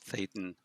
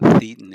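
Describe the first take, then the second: First: The word rhymes with Satan. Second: The word does not rhyme with Satan. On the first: The speaker calls it right. "it's thetan. Rhymes with Satan" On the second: The speaker calls it wrong. "It's not thetan"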